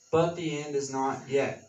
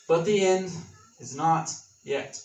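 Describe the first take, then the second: First: Said in the usual way. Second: Forceful preacher's emphasis; emphatic declaration. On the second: Acted. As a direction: hit "end" hard and land slowly on "not yet". Emphatic declaration before scripture.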